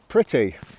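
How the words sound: Said in Received Pronunciation with a clear t. "I'm going to pronounce them like receive pronunciation first"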